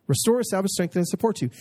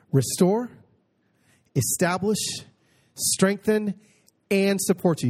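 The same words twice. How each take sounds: First: Said in the usual way. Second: Restore, establish, strengthen, rising in pitch one after another; each promise lifted. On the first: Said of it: "four absolutely incredible promises". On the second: Shown as a demonstration. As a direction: climb on each word of the list. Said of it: "You see that?".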